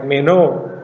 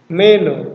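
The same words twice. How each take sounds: First: The second syllable rises and is stressed. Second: The first syllable is high and stressed. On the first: I will stay. "Jadi dibaca O-nya yang naik meno" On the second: I am staying. "Ini dibaca me-nya tinggi meno"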